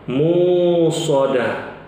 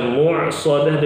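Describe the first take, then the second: First: A long u vowel replaces the middle consonant. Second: A throaty ain sound follows the first syllable. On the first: "diubah menjadi waw sukun" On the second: "dengan ain"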